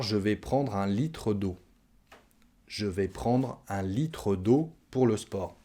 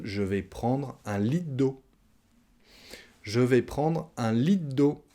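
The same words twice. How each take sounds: First: "litre" said whole, with its re; full careful pronunciation. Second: Slow demo, "litre d'eau" as "lit' d'eau"; dropped last syllable. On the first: Teacher models the sentence before shortening it, careful pronunciation. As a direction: sound out "li-tre d'eau" in full. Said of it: "on va manger encore une fois la dernière syllabe". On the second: Teacher shows what everyone says, dropped last syllable. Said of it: "manger encore une fois la dernière syllabe du mot litre". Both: Shown as a demonstration.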